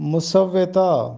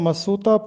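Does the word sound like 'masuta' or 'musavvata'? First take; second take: musavvata; masuta. First: It is said with a doubled v, musavvata. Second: It is said short, as masuta. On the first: The speaker calls it right. "दुरुस्त तलफ़ुज़ तलफ़ुज़ है मुसव्वता" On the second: The speaker calls it wrong. "अक्सर लोग इसको मसूता पढ़ते हैं"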